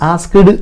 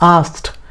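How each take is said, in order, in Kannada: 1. ಕೊನೆಯಲ್ಲಿ ಹೆಚ್ಚುವರಿ 'ed' ಉಚ್ಚಾರಾಂಶ ಇದೆ. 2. ಕೊನೆಯಲ್ಲಿ ಸಣ್ಣ 't' ಧ್ವನಿ ಇದೆ. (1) "ಆಸ್ಕ್ಡ್ ಅಂತಲ್ಲ" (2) "ಇಡಿ ಅನ್ನು ತಗೊಂಡು ಒಂದು ಟಿ ಹಾಕ್ಬಿಡ್ರಿ"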